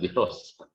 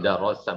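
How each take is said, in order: First: The vowels are i then o. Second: The vowels are a then o. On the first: "bukan dirosa" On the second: "bukan darosa"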